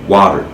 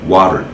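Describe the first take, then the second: The two takes are said the same way.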